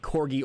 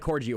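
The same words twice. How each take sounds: First: The g is a hard g sound. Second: The g is a soft j sound. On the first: The speaker calls it right. "it's a hard, a hard guh" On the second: The speaker calls it wrong. "not a corgi orgy"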